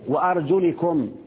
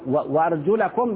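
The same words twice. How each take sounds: First: The vowel after the L is 'i'. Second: The vowel after the L is 'a'. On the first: The ending copies the neighbouring word. "هذه للمجاورة، اللي قبلها مجرور فجرت" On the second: The feet are joined to the washing. "بالنصب كده"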